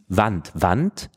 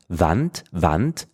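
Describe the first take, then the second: No difference in how they are said.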